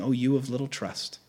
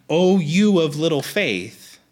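First: Softer, gentle understated reproach; comforting. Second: Slow, emphatic mild scolding; mad, insulting. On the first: Preacher voicing Jesus to the anxious, comforting. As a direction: say it softly, as comfort rather than rebuke. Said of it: "a comfort". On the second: Preacher showing Jesus as mad at us, scolding. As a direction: read it like a stern rebuke. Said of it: "sound like Jesus is mad at us". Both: Shown as a demonstration.

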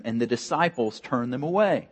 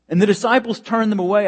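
First: Said in the usual way. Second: Higher, louder and faster, hammering the point home; emphatic repeat. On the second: Shown as a demonstration. Pastor repeating the line to his congregation, emphatic and loud. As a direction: say it again with real force, driving it home.

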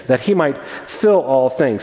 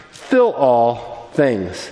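First: Said in the usual way. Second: "fill all things" drawn out very slowly and low, each word weighed; slow emphasis. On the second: Shown as a demonstration.

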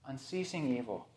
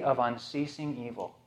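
First: Soft echo. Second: Said in the usual way. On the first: Shown as a demonstration. Preacher lets the phrase sink in, softly. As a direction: let "Unceasing evil" fall away to a near hush.

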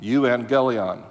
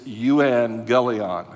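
First: Euangelion repeated slowly, you-an-gel-ee-on; slow careful repeat of Euangelion; Greek word repeated. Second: Euangelion said slowly as you-an-gel-ee-on; slow deliberate euangelion; Greek word euangelion. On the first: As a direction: spell it out again by ear. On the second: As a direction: carefully sound out euangelion. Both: Shown as a demonstration. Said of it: "The word preacher in the Greek is".

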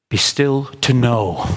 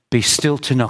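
First: "Be still to know" slowed right down, leaning on "still"; slow and weighty. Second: Said in the usual way. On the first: Shown as a demonstration. Preacher to church, slow with "still" stressed. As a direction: let "still" sink in, slowly. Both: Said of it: "Can you hear that?".

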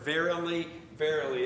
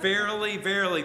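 First: Said in the usual way. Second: Verily said louder, each verily pressed hard; emphatic verily. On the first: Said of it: "I love that word". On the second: Shown as a demonstration. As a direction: lean hard on verily, verily to show it matters. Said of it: "this is important, this matters".

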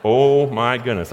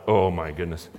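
First: Louder, slow amused exclamation; dad reacting to the word, slow and louder; relieved disbelief. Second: Low, hushed gasp of dismay; a soft shocked murmur; quiet dismay. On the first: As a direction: let it out slowly through a laugh of relief. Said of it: "I was like". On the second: Retold or imitated. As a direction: let the heart sink quietly on it. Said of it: "my heart just went".

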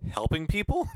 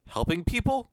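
First: Mock puzzled. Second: High rising "Helping people?", bemused and loud; a confused doctor puzzling over his own good deed; puzzled question. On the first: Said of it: "And he just says". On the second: Retold or imitated. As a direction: ask "Helping people?" like he can't believe it. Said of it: "Question mark".

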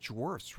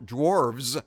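First: "dwarfs" ending in an f sound; "dwarfs", unvoiced fs at the end. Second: "dwarves" slowly, ending in a buzzing vz; "dwarves" with a v sound before the s. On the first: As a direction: say "dwarfs" with a soft f before the s. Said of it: "why is it dwarfs rather than". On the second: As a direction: stretch "dwarves" to show the v. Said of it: "D W A R V E S". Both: Shown as a demonstration.

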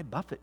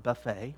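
First: "buffet" as BUFF-it, stress up front; verb pronunciation of buffet. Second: "buffet" as buh-FAY, silent t; food pronunciation of buffet. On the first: Preacher quoting Paul's verse, "buffet" said BUFF-it. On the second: Preacher ruling out the meal word, "buffet" said buh-FAY. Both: Shown as a demonstration. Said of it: "that word's not buffet, right?".

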